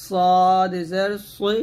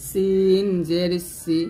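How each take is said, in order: First: সদ জের সই with a thick, heavy স; সদ said full-mouthed and slow; heavy sad. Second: সিন জের সি with a light, thin স; সিন said thin and slow; thin sin. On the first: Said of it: "সদ জের সই বলতে হবে মোটা করে". (মোটা করে সদ জের সই) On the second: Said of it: "সিন হবে পাতলা". (পাতলা করে সিন জের সি) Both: Shown as a demonstration.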